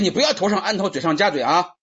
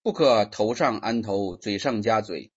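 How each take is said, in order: First: It is said forcefully, as an exclamation. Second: It is read flatly, without force.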